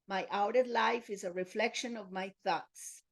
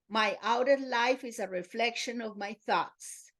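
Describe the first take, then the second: First: It is spoken at normal volume. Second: It is spoken in a loud voice. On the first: "in a normal voice" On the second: "repeat it first in loud voice"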